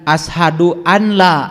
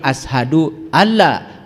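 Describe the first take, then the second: First: The n is clearly pronounced before la. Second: The n merges into a doubled l sound. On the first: The speaker calls it wrong. "Jangan ashadu an la" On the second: The speaker calls it right. "tapi ashadu alla, walaupun di situ ada nun"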